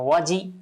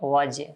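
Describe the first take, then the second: First: The j is followed by a full i vowel. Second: The j ends with a slight echoing bounce. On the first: The speaker calls it wrong. "আবার একেবারে জিমে জের হয় এরকম করব না" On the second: The speaker calls it right. "অর্থাৎ কলকলা করব"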